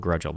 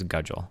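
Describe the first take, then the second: First: An r sound follows the first g. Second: No r sound follows the first g. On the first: The speaker calls it wrong. "I keep calling him Grudgel" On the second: The speaker calls it right. "but it's Gudgel"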